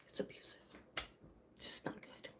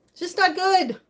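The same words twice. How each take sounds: First: Breathy near-silent whisper; soft private whisper. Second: Louder, higher, stress on not; sudden loud repeat after the whisper; emphatic. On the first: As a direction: barely voice it, hushed and heavy. Drops to a whisper on abuse. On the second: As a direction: punch the not, firm and raised. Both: Real, not acted.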